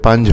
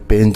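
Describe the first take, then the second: First: The vowel is an open a sound. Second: The vowel is an e sound. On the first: The speaker calls it right. "पंज होता है" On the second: The speaker calls it wrong. "पेंज नहीं होता"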